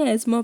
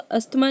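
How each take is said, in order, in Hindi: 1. बीच का व्यंजन 'z' जैसा सुनाई देता है। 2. बीच के व्यंजन 'st' जैसे सुनाई देते हैं। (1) "एजमा पढ़ते हैं" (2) "इसको अस्थमा नहीं"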